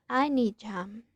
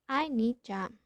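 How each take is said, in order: No difference in how they are said.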